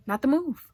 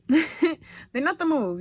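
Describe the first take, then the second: First: Said in the usual way. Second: Laughing. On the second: Shown as a demonstration.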